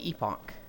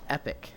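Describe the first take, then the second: First: The word sounds like 'ee-pock'. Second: The word sounds like 'epic'. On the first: "I'm gonna keep saying epoch" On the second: "Apparently it said like epic"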